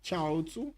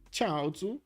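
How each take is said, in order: First: "Chaozu" with the stress on the first syllable, CHAO-zu; repeating the pronunciation. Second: "Chaozu" said higher, testing CHAO-zu with a rise; practising the pronunciation. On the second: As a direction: try "Chaozu" again, first syllable stressed, rising at the end. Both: Shown as a demonstration. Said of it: "Slight emphasis on the first syllable".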